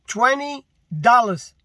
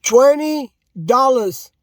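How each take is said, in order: First: Slow, heavy on dollars; a flat, slow statement; slow and deliberate. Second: Slower and louder, leaning on twenty; repeated with heavier stress; emphatic repeat. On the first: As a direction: spell it out slowly. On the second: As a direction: hammer the word twenty home. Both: Shown as a demonstration. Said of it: "Read my lips".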